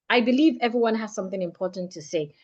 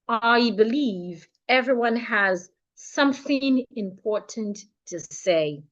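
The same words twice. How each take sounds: First: It is spoken at an ordinary, natural speed. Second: It is spoken much more slowly than usual. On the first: "Say it like your normal self. Use your natural pace" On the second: "let's say it fifty percent slower"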